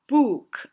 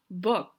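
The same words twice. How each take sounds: First: The vowel is drawn out long. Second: The vowel is short and clipped. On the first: The speaker calls it wrong. "它不是book 啊" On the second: The speaker calls it right. "它是book"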